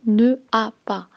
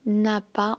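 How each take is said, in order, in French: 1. Le ne se prononce comme sa propre syllabe. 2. Le ne s'élide et se lie à a. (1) "on n'a pas dit ne a pas" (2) "on a dit n'a pas, on a fait la liaison"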